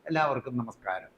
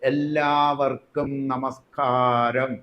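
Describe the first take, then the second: First: It is said flatly and carelessly, without shaping. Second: It is said with lively, deliberately shaped delivery. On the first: The audience does not feel invited to reply. The speaker calls it wrong. "ബോധപൂർവം ഉഴപ്പി പറയും" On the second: The audience feels prompted to greet back. The speaker calls it right. "ഒന്ന് ചിട്ടപ്പെടുത്തും"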